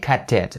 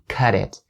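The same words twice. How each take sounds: First: The t is a clear, crisp t. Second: The t is a soft flap, like d. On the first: "more of a British accent and way to pronounce it" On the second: "a flap D sound, according to North American English"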